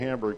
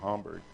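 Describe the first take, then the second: First: The word is said the plain English way. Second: The word is said the German way. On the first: "I used to say Hamburg" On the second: "I should pronounce it the way that they would"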